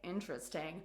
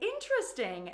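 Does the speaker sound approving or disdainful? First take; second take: disdainful; approving. First: The word sounds disdainful and disapproving. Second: The word sounds interested and approving. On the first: The speaker dislikes the thing. "that shows my disdain and disapproval" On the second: The speaker likes the thing. "that shows my interest and approval"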